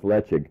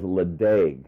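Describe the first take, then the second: First: The name is pronounced the local way. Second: The name is pronounced the way it is spelled. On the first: This is the proper pronunciation. The speaker calls it right. "but pronounced Lechig" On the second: This is how many people know the name. The speaker calls it wrong. "many people may know this as Ledaig"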